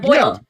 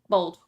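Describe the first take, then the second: First: The vowel is an 'oy' glide, like 'boil'. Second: The vowel is a plain 'oh', like 'bold'. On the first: This is how other people expect it to be said. "but they're boiled" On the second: This is the speaker's own everyday way of saying it. "people make fun of me for the way I say them because it's bold"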